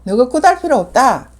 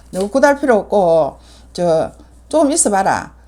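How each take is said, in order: First: Loud high retold command; commanding shout. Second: Said in the usual way. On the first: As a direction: bark it out at the shaman. (큰 소리로 호령하듯) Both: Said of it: "내가 하는 말이야".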